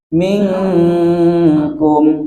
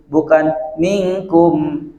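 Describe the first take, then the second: First: The nasal sound before k is held long. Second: The nasal sound before k is cut short. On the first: The speaker calls it right. "harusnya ditahan" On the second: The speaker calls it wrong. "bukan ... tidak ditahan"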